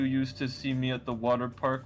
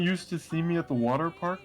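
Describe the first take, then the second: First: The pitch stays fairly steady throughout. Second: The pitch swings up and down throughout.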